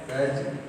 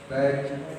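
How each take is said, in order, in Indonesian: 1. Bunyi konsonannya seperti j. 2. Bunyi konsonannya seperti j.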